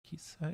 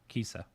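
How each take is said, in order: First: The 'i' vowel is emphasized only lightly. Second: The 'i' vowel is emphasized too heavily. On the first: The speaker calls it right. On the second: The speaker calls it wrong.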